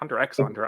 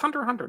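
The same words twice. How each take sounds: First: The letter X is spoken between the words. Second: The X is left silent between the words. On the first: The speaker calls it wrong. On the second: The speaker calls it right. "I never say the X"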